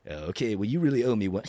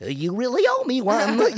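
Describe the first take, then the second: First: Said in the usual way. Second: High, loud mock elf. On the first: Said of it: "I don't think I can do the voice". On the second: Showing how silly the line sounds as elf, high loud voice. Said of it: "you gotta do the elf voice".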